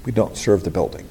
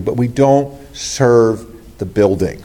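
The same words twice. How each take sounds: First: Softer, lower repeat of "We don't serve the building"; hushed, lower restatement; quiet echo. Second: "don't" leaned on, slow and firm; slow, insistent "don't"; slow emphasis. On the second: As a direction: draw out "don't serve the building". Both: Shown as a demonstration.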